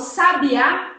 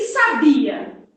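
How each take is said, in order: First: The stress is on the last syllable. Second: The stress is on the middle syllable. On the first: The bird. "quando eu falo sabiá" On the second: Someone knew something in the past. "Alguma coisa no passado que você, sei lá, sabia jogar"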